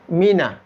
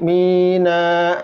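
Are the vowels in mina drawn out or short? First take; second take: short; drawn out. First: Both vowels are kept short. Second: Both vowels are drawn out long. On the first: The speaker calls it right. "dia pendek dua-duanya" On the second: The speaker calls it wrong.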